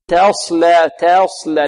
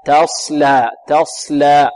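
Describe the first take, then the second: First: "تصلى" starting "tae", a leaning toward e; over-thin the ta of "تصلى" into imala; "تصلى" with a narrowed, e-like first vowel; tilted ta. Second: "تصلى" starting on a light, open "ta"; thin open ta. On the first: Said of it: "البعض ربما يريد أن يرقق فيميل". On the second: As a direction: keep the first a of "تصلى" open, not e-like. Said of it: "وكذلك التاء كذلك". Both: Shown as a demonstration.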